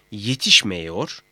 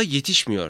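First: "yetişmiyor" said slowly as yetişme-yor; broken-down form. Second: Said in the usual way. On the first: Shown as a demonstration. ("yetişmiyor", yavaşça, i yerine e ile) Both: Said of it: "şeklinde ayrıştırıldığında".

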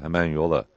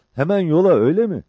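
First: Low-key, level confirmation; composed short reply; Mehmet. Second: High, loud, eager question; excited high-voiced comrade; Cabbar. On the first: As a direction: answer evenly, no excitement. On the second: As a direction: pitch it right up, checking the plan. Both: A narrator's reading.

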